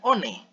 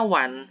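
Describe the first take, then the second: First: The word begins with a plain vowel sound. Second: The word begins with a w sound. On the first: The speaker calls it wrong. "bukan one" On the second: The speaker calls it right. "W itu tetap dibaca W"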